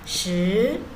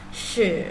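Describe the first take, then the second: First: The pitch rises upward. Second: The pitch dips down then rises. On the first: It means ten. "nada dua ya, naik ke atas" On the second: It means to cause. "bacanya turun naik"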